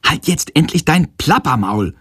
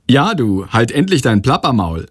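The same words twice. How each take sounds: First: Higher, exasperated mild outburst; slightly too loud. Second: Mildly cheeky echo. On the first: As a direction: blurt it out in irritation, without a full shout. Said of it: "ruft er aus Versehen etwas zu laut". (genervt und etwas zu laut herausgeplatzt) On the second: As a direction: tease lightly, copying the telling-off. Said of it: "kommentiert er frech". (leicht frech nachgeäfft) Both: A narrator's reading.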